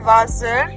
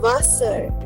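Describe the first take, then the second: First: The middle consonant is a buzzing z sound. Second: The middle consonant is a hissing s sound. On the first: The speaker calls it wrong. "Everywhere we were considering S as Z, right? But this is not" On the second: The speaker calls it right. "It is"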